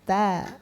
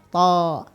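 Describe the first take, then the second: First: The vowel is open, like 'a'. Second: The vowel is rounded, like 'o'. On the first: The speaker calls it right. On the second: The speaker calls it wrong.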